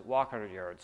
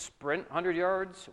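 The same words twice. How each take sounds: First: Dropped much lower for walk; walking pace. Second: Slow, evenly spaced words for the sprint; sprinting pace. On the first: Pastor to congregation, walk line dropped low. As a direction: let the voice fall low on walk. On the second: Pastor to congregation, sprint line said slow and up. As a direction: lift the voice a little for sprint. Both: Shown as a demonstration.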